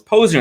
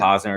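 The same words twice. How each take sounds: First: Posner said the family's own way; Posner, the way the host corrects people; correct family pronunciation. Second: Posner said the common American way; Posner, the way people in the States say it; American mispronunciation. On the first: Host to guest, correcting people on his name, Posner. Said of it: "And I say, "No, it's Posner". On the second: Host to guest, the way Americans mispronounce his name, Posner. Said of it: "we pronounce it Posner". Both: Shown as a demonstration.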